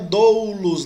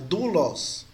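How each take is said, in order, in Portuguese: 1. A primeira vogal é um ditongo deslizante 'oh-oo'. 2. A primeira vogal é um som simples 'oo'. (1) "não é doulos, não" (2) "A pronúncia é U"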